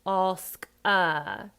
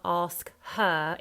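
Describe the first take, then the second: First: "her" said as uh, slow and loud; H dropped. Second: "her" with a clear breathed h; slow ASK HER, h sounded; H pronounced. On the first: Coach showing the Cockney way, H dropped. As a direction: ASK A, no h at all. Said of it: "it's ask a". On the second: Coach showing the wrong way, H pronounced. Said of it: "So it's not ask her". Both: Shown as a demonstration.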